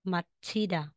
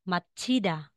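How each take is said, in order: The two takes are said the same way.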